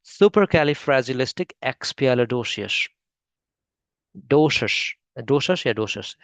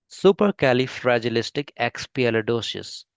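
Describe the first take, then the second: First: Supercalifragilisticexpialidocious said very slowly in a British style, ending in doshus; British English pronunciation. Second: Indian English pronunciation. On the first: Teacher copies the British English version of the word, slow. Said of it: "अब देखते हैं British". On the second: Teacher shows the Indian English version of the word, slow. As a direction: model the Indian English way, syllable by syllable. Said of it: "ये Indian pronunciation है". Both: Shown as a demonstration.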